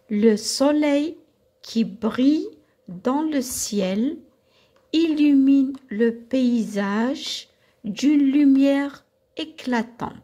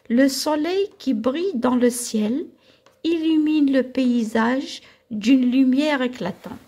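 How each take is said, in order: First: The sentence is read at a slower pace. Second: The sentence is read at a faster pace.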